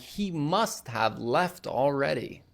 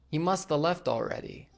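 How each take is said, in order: First: 'Must have' is said fully as two words. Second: 'Must have' is reduced to 'musta'. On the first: "Instead of saying" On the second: "must have becomes musta"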